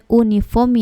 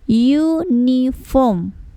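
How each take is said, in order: First: The word begins with a plain u vowel. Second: The word begins with a y sound. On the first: The speaker calls it wrong. "bukan uniform ya" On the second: The speaker calls it right. "yang terdengar pertama kali ya ini huruf y"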